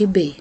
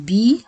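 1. الحركة بعد الحرف تُقطع قصيرة. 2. الحركة بعد الحرف تُنطق كاملة. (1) "ما أقولش ب" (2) "أقول بي"

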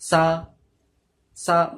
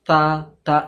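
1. জিভ ভেতরে থাকে, শিসের মতো শব্দ হয়। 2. জিভ শক্ত করে কামড়ানো হয়, রুদ্ধ শব্দ হয়। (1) "জিপটা ভেতরে এমনি করে ঢোকাবে না" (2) "শক্ত করে দাঁত দিয়ে চেপে রাখবে না। তা তা এমনি হবে না"

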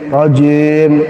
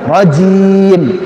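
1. Vokal i itu lemah dan tidak terucap penuh. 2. Vokal i itu penuh dan terucap jelas.

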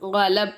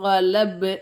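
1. இறுதி b தட்டையாக துண்டிக்கப்படுகிறது, எதிரொலி இல்லாமல். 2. இறுதி b எதிரொலியுடன் துள்ளி வெளிவருகிறது. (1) "கலப் அப்படின்னு சொல்லக்கூடாது" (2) "கலப்பு அப்படின்னு நிப்பாட்டணும்... கல்லுக்கலோட சட்டம்"

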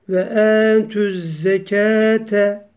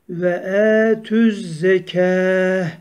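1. Kelime sondaki 'te' hecesiyle biter. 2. Kelime sondaki 'te' hecesi olmadan biter. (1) "Ama geçer isek ve e tüzzekete diye geçiyoruz" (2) "Eğer durur isek tığ duralar"

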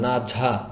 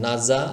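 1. দ্বিতীয় ব্যঞ্জনটি একটি jh ধ্বনি। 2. দ্বিতীয় ব্যঞ্জনটি একটি স্পষ্ট z ধ্বনি।

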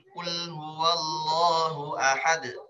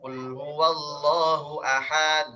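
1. Konsonan terakhir langsung ditekan, tidak dipanjangkan. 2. Vokal sebelum konsonan terakhir dipanjangkan. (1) "Dia langsung tekan"

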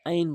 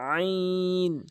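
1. প্রথম ধ্বনিটি চাপ ছাড়াই সহজভাবে বলা হয়। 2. প্রথম ধ্বনিটি জোর চাপ দিয়ে বলা হয়। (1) "আইন বলবেন না" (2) "চাপ দিয়ে বলবেন আইন"

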